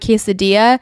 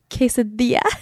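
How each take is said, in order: First: The word is said with an American English accent. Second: The word is said with a Spanish accent. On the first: The speaker sounds like an outsider to the family. The speaker calls it wrong. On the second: The speaker fits in with the family. The speaker calls it right. "So I have to say quesadilla"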